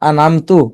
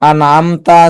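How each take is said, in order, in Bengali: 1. শব্দটি 'u' স্বরে শেষ হয়। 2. শব্দটি 'a' স্বরে শেষ হয়। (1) "এক হরকতের স্থলে অন্য হরকত পড়া" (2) "আনামতা আছে"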